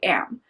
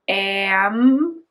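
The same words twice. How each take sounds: First: The word is said quickly as one blended unit. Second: The word is drawn out slowly, sound by sound. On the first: "say it fast" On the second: "say a word slowly"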